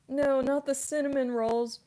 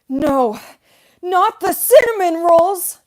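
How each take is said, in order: First: It is said in the speaker's normal voice. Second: It is said in a put-on character voice.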